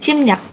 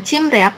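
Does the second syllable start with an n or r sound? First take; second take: n sound; r sound. First: The second syllable starts with an n sound. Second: The second syllable starts with an r sound. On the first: The speaker calls it right. "dia jadi N. Jadi Cimnyak" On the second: The speaker calls it wrong. "Bukan bacanya Cimriak"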